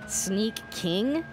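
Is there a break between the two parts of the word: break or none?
break. The two parts are said with a slight break. It is the name of the game's character.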